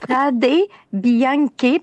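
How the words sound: The name is pronounced with Italian sounds. "Je vais sortir mon italien"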